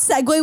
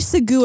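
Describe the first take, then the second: First: The word ends in a 'way' sound. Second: The word ends in an 'oo' sound. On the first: "we don't segue" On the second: "I pronounced it as segu"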